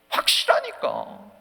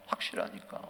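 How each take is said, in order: First: 확실하니까 loud and drawn out; slow, forceful 확실하니까; emphatic conviction. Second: Low, soft 확실하니까; quiet, deep repeat of conviction; hushed conviction. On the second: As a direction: drop 확실하니까 nearly to a whisper. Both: Real, not acted. Same word loud, then hushed.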